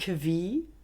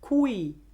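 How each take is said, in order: First: The qu sounds like kv. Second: The qu sounds like kw. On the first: "auf Deutsch Q" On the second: "auf Italienisch Qui"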